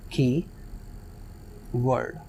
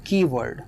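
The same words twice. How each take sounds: First: keyword said very slowly and softly as की... word, almost whispered; split into syllables. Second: Said in the usual way. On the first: Shown as a demonstration. Teacher showing students the syllable break, slow and soft. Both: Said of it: "की एक अलग word है".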